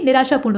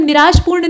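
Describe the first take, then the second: First: निराशापूर्ण with long aa after sh; full middle aa. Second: निराशपूर्ण with no vowel after sh; missing aa. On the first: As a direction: say निराशापूर्ण as niraashaa-poorn. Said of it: "निराशापूर्ण होता है". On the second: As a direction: say निराशपूर्ण as niraash-poorn. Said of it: "नहीं बल्कि निराशापूर्ण होता". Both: Shown as a demonstration.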